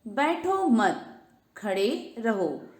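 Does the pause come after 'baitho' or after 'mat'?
after mat. The pause comes after 'mat'.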